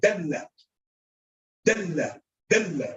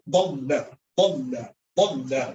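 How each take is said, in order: First: Dalla with a light D and long L, dell-la; light Arabic D. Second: Dalla with a heavy, low dark first sound, doll-la; heavy Arabic D. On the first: Teacher contrasting two letters, light dell-la for Dalla. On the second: Teacher contrasting two letters, heavy doll-la for dalla. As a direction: say dalla lower, as doll-la, L held. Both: Shown as a demonstration. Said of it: "It's different than".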